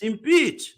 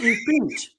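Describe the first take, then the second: First: The second syllable sounds like 'peach'. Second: The second syllable sounds like 'pinch'. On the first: The speaker calls it right. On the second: The speaker calls it wrong. "not impinch"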